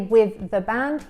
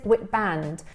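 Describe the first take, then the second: First: The word 'the' is said in full. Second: The word 'the' is linked and reduced. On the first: "He doesn't say" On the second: "he says"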